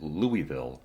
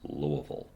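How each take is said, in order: First: The name is said in an outsider's pronunciation. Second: The name is said in the local pronunciation. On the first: The speaker is from out of town. The speaker calls it wrong. "you pronounce it Louisville, you can definitely let some of the locals there know that you're from out of town" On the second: The speaker is a local. The speaker calls it right. "they pronounce it Louisville"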